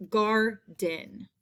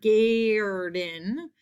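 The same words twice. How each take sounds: First: GARDEN as "gar-den", open AH plus R; correct AR sound. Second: GARDEN mispronounced "gay-er-den", long A drawn out; wrong vowel. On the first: Teacher models the spelling example, "garden" with an AR sound. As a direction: say "garden" in two slow syllables, "gar", then "den". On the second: Teacher shows what it's not, "garden" with a long A. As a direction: stretch "garden" into a slow "gaaay-rden", rising at the end. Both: Shown as a demonstration. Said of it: "It's not garden".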